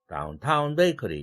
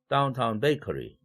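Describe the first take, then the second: First: Downtown is stressed on its second syllable. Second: Downtown is stressed on its first syllable. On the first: The speaker calls it wrong. "이렇게 하지 않고" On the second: The speaker calls it right. "이렇게 합니다. 그래서 강약강 이, 삼, 일"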